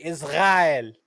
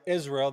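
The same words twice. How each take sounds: First: Israel with the R made in the throat; mock "Iz-gha-el" for Israel; mimicked Hebrew R. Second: Said in the usual way. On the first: Shown as a demonstration. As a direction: swallow the R of Israel into a throaty gargle. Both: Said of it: "They can't say the letter R".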